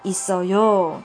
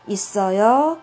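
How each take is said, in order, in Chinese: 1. 句尾音调下降。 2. 句尾音调上升。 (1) "肯定句就있어요就好了" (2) "有疑问句的时候，语调要上升"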